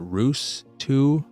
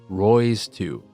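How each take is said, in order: First: The name rhymes with 'shoes'. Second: The name rhymes with 'boys'. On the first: "Some may pronounce it Roos two" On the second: "which I believe is the pronunciation"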